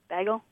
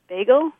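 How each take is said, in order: First: The first syllable does not sound like 'bay'. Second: The first syllable sounds like 'bay'.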